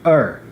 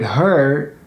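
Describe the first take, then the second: First: The initial h sound is dropped. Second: The initial h sound is pronounced. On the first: "you might hear er" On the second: "The word her"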